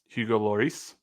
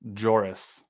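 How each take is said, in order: First: The name begins with an L sound. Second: The name begins with a J sound. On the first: "So you do say the L?" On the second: "he was pronouncing it with a J"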